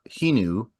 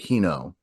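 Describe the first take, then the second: First: The name ends with an 'oo' sound. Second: The name ends with an 'oh' sound. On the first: The speaker calls it right. "her name is uh Hinu" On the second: The speaker calls it wrong. "but I pronounce it Hino"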